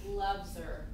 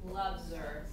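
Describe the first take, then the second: First: The h in 'her' is dropped and linked. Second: The h in 'her' is dropped and linked.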